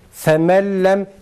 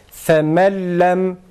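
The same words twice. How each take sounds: No difference in how they are said.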